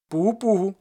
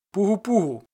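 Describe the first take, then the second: First: Louder, higher ringing hail; cossack call. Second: Ringing call, pitched up and out; cossack call. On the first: Ostap repeating the call at the gate, loud. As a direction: call it out across the yard. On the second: Ostap calling at the gate, loud call. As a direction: hail the gate like a Zaporozhian. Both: Acted. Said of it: "загукав за січовим звичаєм".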